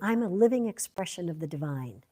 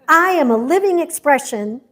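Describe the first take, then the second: First: It is said with plain, ordinary energy. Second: It is said with high, enthusiastic energy.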